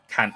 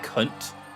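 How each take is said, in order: First: It is said with an Australian 'a' vowel. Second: It is said with a British vowel. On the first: "Australians say can't. Like with an A"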